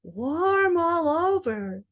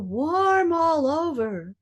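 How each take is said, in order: First: The voice sounds placed back in the mouth. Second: The same.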